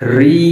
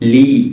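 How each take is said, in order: First: It begins with a trilled r sound. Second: It begins with an l sound. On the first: The speaker calls it right. "এর সঠিক উচ্চারণ হচ্ছে রি" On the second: The speaker calls it wrong. "অনেকে এটাকে বলে লি। না, লি বলা যাবে না।"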